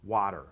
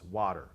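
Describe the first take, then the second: Both takes have the same delivery.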